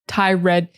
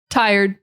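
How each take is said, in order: First: The second part sounds like 'red'. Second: The second part sounds like 'erd'. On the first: The speaker calls it wrong. "A lot of people see this word and they think it's tired" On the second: The speaker calls it right. "tie, erd. That's it"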